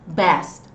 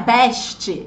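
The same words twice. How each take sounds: First: The final T is very soft. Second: The final T is strongly pronounced. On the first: "Em inglês, esse som, ele é bem suavizado" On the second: "Como a gente diz em português"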